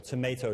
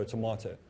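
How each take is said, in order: First: Tomato as to-MAY-to; "may" pronunciation. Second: Tomato as to-MAH-to; "mah" pronunciation. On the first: Teacher comparing interchangeable forms, tomato said to-MAY-to. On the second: Teacher comparing interchangeable forms, tomato said to-MAH-to. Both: Shown as a demonstration. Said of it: "Use them interchangeably".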